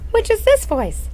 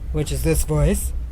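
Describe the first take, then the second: First: It is said in a high head voice. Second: It is said in a low chest voice. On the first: "And one quarter head" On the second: "Men's voices are three quarters chest"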